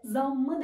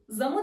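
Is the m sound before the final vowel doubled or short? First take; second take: doubled; short. First: The m sound is long and doubled. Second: The m sound is short and single. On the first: The speaker calls it right. "zammı dedim" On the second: The speaker calls it wrong. "Zamı demedim"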